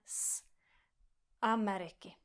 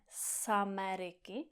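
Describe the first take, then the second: First: A tiny break separates s from Ameriky. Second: The s runs straight into Ameriky. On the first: The speaker calls it right. "Mezi s a a je taková mini pauza" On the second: The speaker calls it wrong. "neříkáme z Ameriky"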